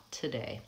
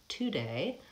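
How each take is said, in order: First: "today" with a schwa, tuh-day; schwa reduction. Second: "today" with a full oo, too-day; wrong pronunciation. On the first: Teacher shows students the right way, schwa. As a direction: say it lightly with a schwa. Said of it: "I reduce that vowel to a schwa". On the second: Teacher shows students the wrong way, pure oo. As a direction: pronounce the first vowel as pure oo. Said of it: "I don't say today". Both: Shown as a demonstration.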